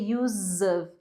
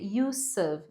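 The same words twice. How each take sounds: First: Use ends with a buzzing Z sound. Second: Use ends with a hissing S sound. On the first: The speaker calls it wrong. "não vai ser use of" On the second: The speaker calls it right. "E vai ser use of"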